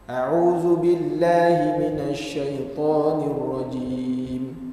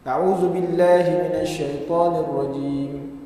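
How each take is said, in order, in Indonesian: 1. Dibaca dengan lambat dan tenang. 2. Dibaca dengan cepat. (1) "bacaannya perlahan" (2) "Hadar ni bacaannya laju"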